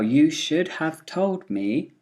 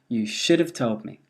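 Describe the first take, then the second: First: The small words keep their full vowels. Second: The small words are reduced to weak vowels.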